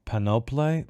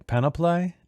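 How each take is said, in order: First: Panoply as a tentative first attempt; first try at a word. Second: Panoply pitched much higher, questioning; questioning second try. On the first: Reader meeting panoply in the passage, tentative first try. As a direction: sound out panoply hesitantly, at a normal pitch. Tries a word two ways. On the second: Reader retrying panoply in the passage, high amused query. Retries the word, then laughs. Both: Real, not acted.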